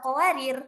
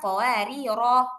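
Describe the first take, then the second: First: The word ends on a bare consonant. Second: The word ends in a long final vowel. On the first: The speaker calls it wrong. "nggak boleh dibaca qawarir" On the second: The speaker calls it right. "maka panjang bacanya qawariro"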